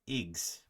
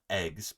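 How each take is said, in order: First: The vowel is a short i sound. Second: The vowel is a short e sound. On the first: "but eggs" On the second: "Not not eggs"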